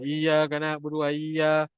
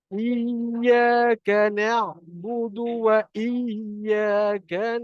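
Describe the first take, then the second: First: The doubled consonants are skipped, read as single. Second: The doubled consonants are held, clearly lengthened. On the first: The speaker calls it wrong. "Ramai yang baca ... salah lah tu" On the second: The speaker calls it right. "pastikan kita matikan dia"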